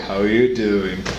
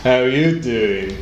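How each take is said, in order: First: A light, quick take on Joey's "How you doing?"; a hint of Joey greeting a woman; Joey impression. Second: Slow, drawn-out "How you doing?" in an English pickup-line voice; Joey's smooth flirty greeting, said very slowly; Joey impression. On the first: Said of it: "Joey era el típico saludo de". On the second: Joey catchphrase during Friends chat.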